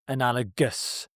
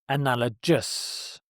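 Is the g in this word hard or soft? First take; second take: hard; soft. First: The g is said as a hard sound. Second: The g is said as a soft sound. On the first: The speaker calls it right. "It's a hard G" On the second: The speaker calls it wrong. "not analogous. This is a common pronunciation error"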